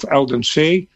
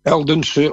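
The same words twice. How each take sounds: First: Eldense with full, clear e sounds; alternative pronunciation. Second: Eldense with unstressed, muted middle and final e; alternative pronunciation. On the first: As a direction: say Eldense as "el-den-SAY", ending on an open ee. (Eldense met volle klinkers, als "El-den-see") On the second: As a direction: say Eldense with schwa endings, like "EL-dun-suh". (Eldense met doffe e's, als "El-dun-suh") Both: Shown as a demonstration. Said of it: "hoe je dat uitspreekt".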